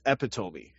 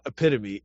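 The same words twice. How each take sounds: First: The word is said as epi plus tome. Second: The word is said the standard way, e-pit-o-me. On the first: The speaker calls it right. "it's epitome" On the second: The speaker calls it wrong. "not epitome"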